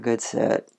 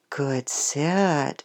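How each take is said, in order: First: The praise is said flatly, without feeling. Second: The praise is said warmly, with heartfelt feeling. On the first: The praise carries no real meaning. The speaker calls it wrong. "you don't want to do it like it doesn't have any meaning" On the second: The praise is sincere and affectionate. The speaker calls it right. "sometimes it's warm and heartfelt"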